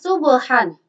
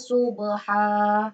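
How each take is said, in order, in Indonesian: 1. Kata ini berakhir dengan bunyi n. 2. Kata ini berakhir dengan vokal panjang. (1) "Di sini tertulis" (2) "ketika wakaf dibaca"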